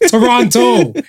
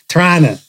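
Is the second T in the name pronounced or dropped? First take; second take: pronounced; dropped. First: The second T sound is clearly pronounced. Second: The second T sound is dropped. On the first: This is how the speaker says the name. The speaker calls it right. "It's there. Don't act like it ain't there" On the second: This is how locals say the name. The speaker calls it wrong. "apparently you guys don't pronounce the T"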